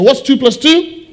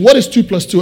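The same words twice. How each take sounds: First: Higher-pitched call to the crowd; rallying call-out. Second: Said in the usual way. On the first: Real, not acted. Preacher getting congregation to shout the answer, rallying call-out. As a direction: throw the question out for everyone to shout back.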